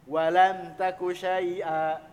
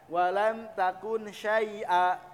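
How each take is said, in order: First: The n at the end of takun is dropped. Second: The n at the end of takun is pronounced. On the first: "bisa si nunnya dihilangkan" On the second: "Jadi asalnya walam takun syai'a, harusnya begitu"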